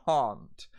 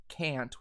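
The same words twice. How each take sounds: First: "can't" with a broad "ah", like "cahn't"; long open A in "can't"; High British pronunciation. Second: "can't" with the A of "cat"; American short A in "can't"; American pronunciation. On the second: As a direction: say "can't" the American way, rhyming with "ant". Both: Shown as a demonstration. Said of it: "can't will turn into can't".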